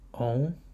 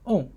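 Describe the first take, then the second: First: The pitch rises from mid to high. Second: The pitch falls sharply from high to low.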